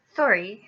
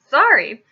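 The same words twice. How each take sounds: First: Quick, unobtrusive apology; short quick sorry; quick reply. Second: Loud, higher barked question; explosive, indignant bark. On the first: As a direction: say sorry quickly, without a big push. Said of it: "Harry said quickly". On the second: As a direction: bark it back in disbelief. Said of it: "barked Hagrid". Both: A narrator's reading.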